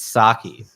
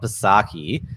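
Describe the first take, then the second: First: The name starts with an s sound. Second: The name starts with a sounded p. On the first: The speaker calls it right. "The P is silent" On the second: The speaker calls it wrong. "so it's not Psaki"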